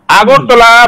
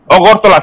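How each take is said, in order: First: আগরতলা starting on an open "aa"; slow আগরতলা with a clear opening "aa"; standard pronunciation. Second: অগরতলা starting on a rounded "o"; local mispronunciation. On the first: Shown as a demonstration. Showing what Boroks never manage to say, আগরতলা with open first "aa". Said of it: "কোনো সময় উচ্চারণ খাই মাইয়া". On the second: Retold or imitated. Showing how Boroks say the city's name, অগরতলা with rounded first "o". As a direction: say অগরতলা as Ogortola, no opening "aa". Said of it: "সি হিনো".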